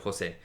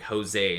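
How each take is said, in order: First: The name is said with a Spanish accent. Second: The name is said with an American accent.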